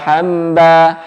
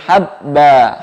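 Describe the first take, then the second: First: The b is soft and sounds like mb. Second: The b is pressed firmly and strongly. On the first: The speaker calls it wrong. "Kalau lembut nanti seperti ada mimnya" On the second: The speaker calls it right. "Ba-nya kuat"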